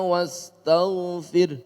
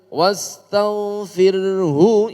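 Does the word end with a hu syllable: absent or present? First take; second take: absent; present. First: The word ends without a final vowel syllable. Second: The word ends with a full hu syllable. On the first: The reciter stops at the end of the verse. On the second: The reciter continues into the next verse.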